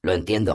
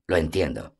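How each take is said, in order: First: Said in the usual way. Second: Sad smile. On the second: Acted. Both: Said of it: "El elfo sonrió con tristeza".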